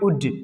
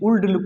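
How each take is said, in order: First: The L sound is left out of the word. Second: The L sound is pronounced in the word. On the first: The speaker calls it right. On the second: The speaker calls it wrong.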